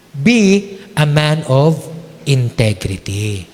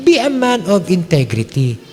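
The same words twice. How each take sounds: First: "Be a man of integrity" slow, pitch dropping on "integrity"; slow emphasis. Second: Said in the usual way. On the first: Shown as a demonstration. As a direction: land "integrity" low and slow. (dahan-dahan, bumababa sa "integrity")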